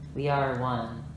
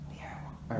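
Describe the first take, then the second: First: It is spoken in a full voice. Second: It is spoken in a whisper. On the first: The speaker calls it right. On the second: The speaker calls it wrong.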